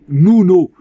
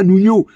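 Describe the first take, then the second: First: No extra sound comes before the final o. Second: An extra 'y' sound comes before the final o. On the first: The speaker calls it right. "c'est Nuno" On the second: The speaker calls it wrong. "c'est pas Nuno ... Il n'y a pas de i entre le n et le o"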